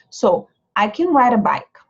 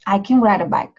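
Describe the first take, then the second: First: Slow demo. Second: I can ride a bike with can reduced and short; native-speed reduced can; natural reduced can. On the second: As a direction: blend can into ride quickly. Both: Shown as a demonstration. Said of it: "pode ver que o can não sai".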